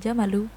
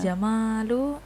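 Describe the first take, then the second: First: The vowel after the m is short. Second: The vowel after the m is long. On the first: It means camel. "tanpa panjang, al jamalu itu unta" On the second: It means beauty or handsomeness. "baru tampan"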